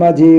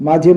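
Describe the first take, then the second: Both takes have the same delivery.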